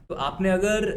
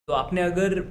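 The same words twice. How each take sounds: The two takes are said the same way.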